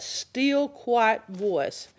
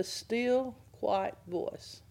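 First: "still" stretched for emphasis, not hushed; stress on STILL. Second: Hushed, softly fading delivery; softly, trailing down to near quiet; still, quiet voice. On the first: Shown as a demonstration. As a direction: STILL drawn out at full voice. Names the phrase at teaching volume. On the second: Acted. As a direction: let it drop soft and gentle. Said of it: "in the still, quiet voice".

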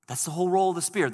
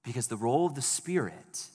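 First: "role" punched, louder, higher and fast; stress on role. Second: Said in the usual way. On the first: Shown as a demonstration. Pastor hammering home the Spirit's role, stressing "role". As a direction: repeat it fast and loud, hitting "role".

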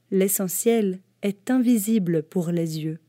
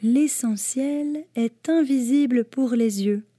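First: The fox teaching the little prince, lightly voiced. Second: Put-on higher boyish voice stressing "invisible"; the little prince repeating the fox's secret, higher. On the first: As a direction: state "L'essentiel est invisible" like a gentle lesson. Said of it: "répéta le petit prince". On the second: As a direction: repeat it to remember it, like a child. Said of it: "répéta le petit prince afin de se souvenir". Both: A narrator's reading.

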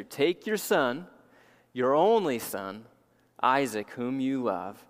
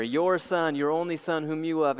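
First: Slow, stress on "your" in "Take your son, your only son"; weighty scripture emphasis on "your" and "only"; emphatic reading. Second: Said in the usual way. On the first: Shown as a demonstration. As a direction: lean on "your" and "only", one word at a time. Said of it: "look at the emphatic sense here". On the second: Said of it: "it's second, second person singular".

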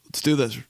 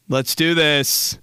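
First: Said in the usual way. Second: "Let's do this" slow and drawn out; psyched-up resolve. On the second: Retold or imitated. To friend before the chair bet, slow psyched-up resolve. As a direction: stretch "Let's do this" to psych them up.

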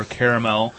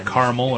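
First: "caramel" said as CARE-uh-mel; three-syllable caramel. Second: "caramel" said as CAR-mul; two-syllable caramel. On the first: Podcaster offering the other way to say a film title, "caramel" as CARE-uh-mel. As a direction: say "caramel" in full, ending on mel. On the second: Podcaster offering one way to say a film title, "caramel" as CAR-mul. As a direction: say "caramel" short, with no middle vowel. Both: Shown as a demonstration. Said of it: "It's either caramel or caramel".

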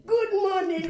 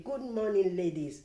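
First: High, loud, beaming "Good morning"; loud cheery greeting. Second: Said in the usual way. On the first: Retold or imitated. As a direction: call it out high and bright, much louder. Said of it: "And they said". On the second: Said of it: "I came to breakfast and I said".

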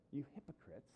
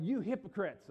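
First: Quiet, restrained rebuke; Jesus. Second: Loud, higher rebuke; worked up. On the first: Jesus addresses us as the Pharisees, softly accusing. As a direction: say it softly, straight to the listener. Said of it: "we're the audience that Jesus is talking to". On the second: Jesus rails at the Pharisees while disciples watch, worked up. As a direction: call out the accusation, worked up. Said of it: "maybe even yelling when he said this". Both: Acted.

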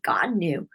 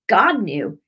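First: Said in the usual way. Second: "God knew" said louder, both words leaned on; emphatic repeat. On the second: Retold or imitated. Telling the crying woman God knew, emphatic.

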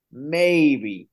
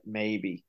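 First: "maybe" repeated with heavy emphasis; emphatic doubt. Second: Said in the usual way. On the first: Real, not acted. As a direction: lean hard on "maybe" as a grudging limit. Repeats the word to stress doubt.

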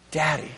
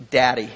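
First: Daddy murmured softer, almost hushed. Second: Daddy said low and tender. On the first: Preacher repeating to the congregation, Daddy hushed and tender. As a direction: let Daddy fall to a hush. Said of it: "repeated much softer". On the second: Preacher unveiling Abba's meaning, daddy low and tender. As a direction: say daddy gently, like a child would. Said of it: "literally means". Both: Shown as a demonstration.

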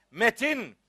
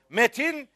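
Both takes have the same delivery.

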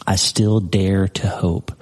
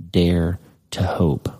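First: Slow, deliberate, each word weighed; slow emphasis. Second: Slow, whispered dare to hope; hushed. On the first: Preacher repeating the verse firmly for the congregation. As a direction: lean on still and hope. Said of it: "That is a verb". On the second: Preacher whispering the turn to hope to his flock. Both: Shown as a demonstration.

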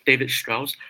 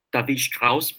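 First: David said the English way, "Day-vid"; anglicized David, with a long AY; English pronunciation. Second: David said the German way, "Dah-veed"; German-style David, with SHT opening Strauss; German pronunciation. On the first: Repeats the name in English. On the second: German name, then anglicized version. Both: Shown as a demonstration.

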